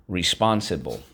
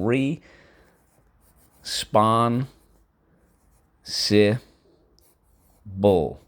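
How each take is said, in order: First: Said in the usual way. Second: "re. Spon. Si. Bull." with each syllable said apart and a pause between. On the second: Shown as a demonstration. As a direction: break the word into its syllables, one at a time. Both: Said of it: "First syllable".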